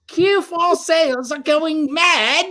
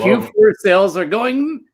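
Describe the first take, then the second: First: It is said in a put-on British accent. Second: It is said in his normal accent.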